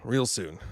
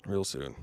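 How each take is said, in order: First: Said in the usual way. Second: Lower, softer, British-tinged; lower, quieter mock British; mock British accent. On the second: Shown as a demonstration. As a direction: slip into the Nolan voice. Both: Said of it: "I can't stop talking like this now".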